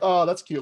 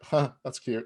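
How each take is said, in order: First: It sounds sincerely delighted and charmed. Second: It sounds puzzled, finding it weird.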